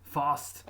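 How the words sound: It has a deep, broad 'ah' vowel. "with this deep ah, like in British"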